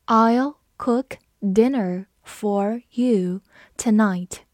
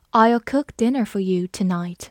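First: Very slow, one word at a time; slow read-along. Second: Said in the usual way. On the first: Shown as a demonstration. Teacher leading learners through the dinner sentence, slow read-along. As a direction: spell out the sentence word by word, with pauses. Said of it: "好，我们慢读一遍". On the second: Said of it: "我们慢读一遍".

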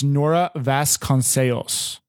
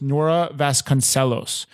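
First: Nora Vasconcelos slow, Vasconcelos as vas-kon-SAY-s; Portuguese pronunciation. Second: Nora Vasconcelos in plain American, Vasconcelos as vas-kon-SELL-ohs; American pronunciation. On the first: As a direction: Vasconcelos said Portuguese, the L nearly gone. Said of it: "the very correct, proper way". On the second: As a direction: Vasconcelos with an English SELL and long OH. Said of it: "normal slang English would be". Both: Shown as a demonstration.

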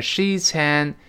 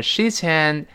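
First: "sheets and" slowly, each word separate; words apart. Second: "sheets and" run together as one word; linked. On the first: Teacher builds up linking, "sheets and" slowly in parts. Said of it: "变成sheets and". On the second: Teacher shows linking, "sheets and" joined up. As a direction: glide the ts of "sheets" straight into "and". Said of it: "连到一块儿". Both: Shown as a demonstration.

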